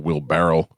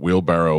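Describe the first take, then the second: First: The word ends with a 'barrel' sound. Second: The word ends with a 'barrow' sound. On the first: This is what the speaker wrongly believed. The speaker calls it wrong. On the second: This is the real word. The speaker calls it right.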